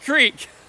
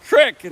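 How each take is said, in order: First: The vowel is a long 'ee' sound. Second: The vowel is a short 'ih' sound. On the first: This is how people elsewhere say it. The speaker calls it wrong. "not creek" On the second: This is how locals in Michigan say it. The speaker calls it right. "The Michigan pronunciation is crick"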